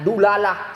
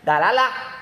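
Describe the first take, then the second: First: The first vowel is a u sound. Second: The first vowel is an open a sound. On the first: "tapi juga bisa dibaca dengan dulalah" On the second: "dengan fathah dal, dalalah lebih fasih"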